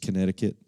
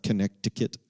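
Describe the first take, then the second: First: Said in the usual way. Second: "Connecticut" as con-NECK-ti-cut, hard c before the t; "Connecticut" said as spelled, con-neck-ti-cut; middle c sounded. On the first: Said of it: "It's just Connecticut". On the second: Shown as a demonstration. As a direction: click the silent c in "Connecticut". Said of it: "It's not Connecticut".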